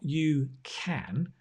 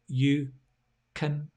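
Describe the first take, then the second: First: Can has a full, clear vowel. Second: Can has a weak schwa vowel. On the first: The speaker calls it wrong. "it's not you can" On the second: The speaker calls it right. "it's you can"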